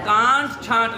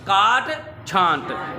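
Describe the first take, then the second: First: The first word has a nasal n sound. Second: The first word has no nasal sound. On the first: The speaker calls it wrong. "कांट छांट नहीं" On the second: The speaker calls it right. "नून के बगैर पढ़ना है"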